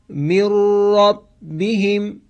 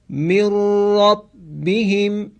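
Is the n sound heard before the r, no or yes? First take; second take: no; no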